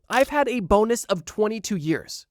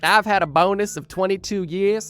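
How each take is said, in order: First: It is said in the speaker's usual accent. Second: It is said in an attempted Australian accent.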